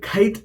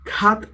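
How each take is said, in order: First: The vowel is an eye-like glide. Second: The vowel is an open ah sound. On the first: "അല്ലെങ്കിൽ ഖൈറ്റ് എന്നോ അല്ല പറയുന്നത്" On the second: "നമ്മൾ ഖാത്ത് എന്നോ ... അല്ല പറയുന്നത്"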